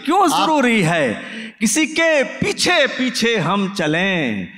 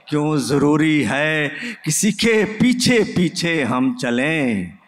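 First: The line is recited with more force. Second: The line is recited softly and gently. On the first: The speaker calls it right. "इस पे फिर सुनिए और फिर से दाद दीजिए" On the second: The speaker calls it wrong. "अगर नरमी से शेर पढ़ दिया जाए तो दाद कम हो जाती है"

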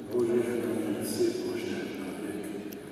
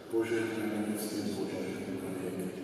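Both takes have the same delivery.

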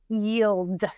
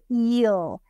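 First: The word ends with a final d sound. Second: The word ends without a final d sound. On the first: The word has four sounds. "The way I say it, there's four" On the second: The word has three sounds. "the way you say it, there's three"

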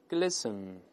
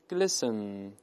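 No difference in how they are said.

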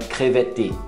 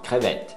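First: The word ends with a vowel after the T. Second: The word stops cleanly on the T sound. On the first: The speaker calls it wrong. "Você não fala crevette, não" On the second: The speaker calls it right. "você para no T"

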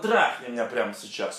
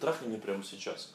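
First: It is said in a harsh, hostile way. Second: It is said in a soft, feminine way. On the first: She shows contempt for the man. The speaker calls it wrong. "неправильное выполнение – это когда она показывает нотки мужика" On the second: She shows her femininity. The speaker calls it right. "Правильное выполнение"

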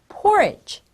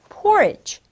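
The two takes are said the same way.

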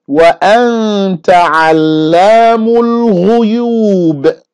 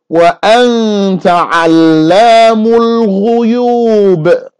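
The two takes are said the same way.

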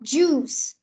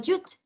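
First: The word ends with a clear s sound. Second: The word ends without a clear s sound. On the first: The speaker calls it right. "Mình đọc là juice" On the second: The speaker calls it wrong. "mình không đọc là juice"

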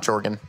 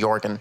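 First: The name begins with a J sound. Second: The name begins with a Y sound. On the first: The speaker calls it wrong. "not Jorgen" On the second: The speaker calls it right. "I think his name's actually Jorgen"

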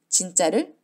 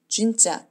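First: It is said with plain Korean unrounded lips. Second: It is said with rounded lips, English-style.

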